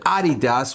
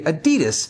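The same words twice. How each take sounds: First: It uses the pronunciation common outside America. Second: It uses the usual American pronunciation. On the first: The speaker calls it right. "I said Adidas" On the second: The speaker calls it wrong. "here in the States we say Adidas"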